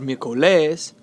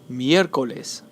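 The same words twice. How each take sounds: First: The stress falls on a later syllable. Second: The stress is on the first syllable. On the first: The speaker calls it wrong. "It's not" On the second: The speaker calls it right. "The stress is on the third to last syllable"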